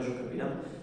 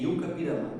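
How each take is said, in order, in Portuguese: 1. A primeira palavra começa com som de zh. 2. A primeira palavra começa com som de y.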